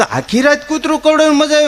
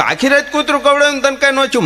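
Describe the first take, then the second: First: High, fast incredulous question; can't believe he enjoyed it; amazed question. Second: High, fast disbelieving question; amazed question. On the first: Teller asking the stammerer, incredulous, high and fast. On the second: Teller asking the stammerer, amazed, high and fast. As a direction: fire it off in disbelief. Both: Retold or imitated.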